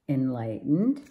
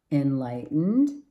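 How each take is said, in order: Both takes have the same delivery.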